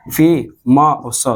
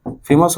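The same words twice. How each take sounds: First: फे-मा-स broken into three slow, separate syllables; teacher sounding out फे-मा-स for the class; split into syllables. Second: Said in the usual way. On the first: Shown as a demonstration. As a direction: say फे-मा-स syllable by syllable, very slowly. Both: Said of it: "फे-मा-स".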